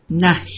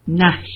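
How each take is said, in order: Both takes have the same delivery.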